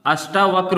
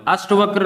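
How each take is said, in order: First: अष्टावक्र with a long taa in the middle; correct pronunciation. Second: अष्टवक्र with short ta, no aa; wrong pronunciation. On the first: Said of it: "अष्टावक्र होता है". (अष्टावक्र में लंबा टा बोलिए) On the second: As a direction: say अष्टवक्र clipped, as the error. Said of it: "अष्टवक्र नहीं होता". (अष्टवक्र को गलत, छोटे ट के साथ) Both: Shown as a demonstration.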